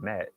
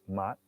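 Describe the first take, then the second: First: The vowel sounds like the one in 'cat'. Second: The vowel sounds like the one in 'cot'. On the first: The speaker calls it wrong. "It's not Matt" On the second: The speaker calls it right. "It's Mott"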